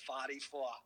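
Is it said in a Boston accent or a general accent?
Boston. It is said in a Boston accent.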